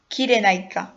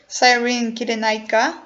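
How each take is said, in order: First: Kyrenaika said as kee-deh-NYE-ka in a Greek accent. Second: Said in the usual way. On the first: Shown as a demonstration. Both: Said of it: "let me put my best Greek accent".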